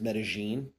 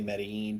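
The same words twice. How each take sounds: First: The middle consonant sounds like a J. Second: The middle consonant is a plain L sound. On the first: This is how locals say it. "the way it's pronounced there is Medellin with like a J" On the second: This is how foreigners tend to say it. "North Americans and Europeans probably say Medellin"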